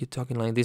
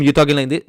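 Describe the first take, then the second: First: It is said quietly. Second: It is said loudly.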